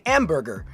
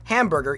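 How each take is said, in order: First: The word is said in a French accent. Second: The word is said in an English accent.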